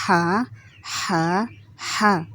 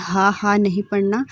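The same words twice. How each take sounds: First: ہا pushed from the middle of the throat with weight; a heavier throat ہا. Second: ہا said as a light breathy ordinary h; the flat ہا students should avoid; wrong way. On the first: Teacher showing the correct throaty ہا. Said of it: "اس کو ایسے ادا کرنا ہے". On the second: Teacher showing the wrong ہا before the right one. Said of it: "اس کو کبھی بھی آپ نے ہا، ہا نہیں پڑھنا". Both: Shown as a demonstration.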